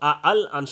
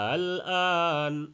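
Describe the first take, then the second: First: The second hamza is pronounced hard and full. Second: The second hamza is pronounced soft and light. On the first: The speaker calls it wrong. "শক্ত করা যাবে না" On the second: The speaker calls it right. "দ্বিতীয়টাকে হালকা উচ্চারণ"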